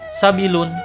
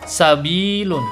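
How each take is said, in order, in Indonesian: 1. Vokalnya dibaca pendek, tidak dipanjangkan. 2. Vokalnya dipanjangkan, dua harakat. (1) "Tidak boleh dibaca sabilun" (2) "Sabilun dipanjangkan dua harakat"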